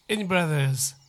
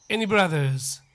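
The two takes are said the same way.

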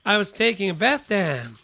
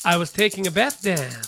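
No difference in how they are said.

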